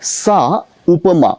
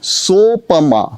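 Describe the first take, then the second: First: The two words are said separately. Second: The two words are merged into one sound. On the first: "इन दो शब्दों" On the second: "इन दो शब्दों की संधि से बना सोपमा"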